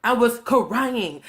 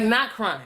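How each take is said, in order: First: CRYING stretched out at half speed; "crying" slowly elongated to show how extreme; drawn-out CRYING. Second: Said in the usual way. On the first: Shown as a demonstration. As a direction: lean long and hard on "crying". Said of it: "Like, not crying".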